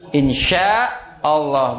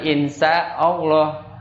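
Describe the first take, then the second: First: The middle consonant is a sh sound. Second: The middle consonant is a plain s sound. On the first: God willing. The speaker calls it right. "harus benar pengucapannya" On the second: It insults God by calling Him bad. The speaker calls it wrong.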